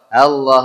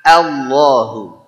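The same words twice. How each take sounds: First: The opening vowel is said lightly, without force. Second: The opening vowel is said strongly, with force. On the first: The speaker calls it wrong. "tidak asal-asalan" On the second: The speaker calls it right. "dia ada tenaga"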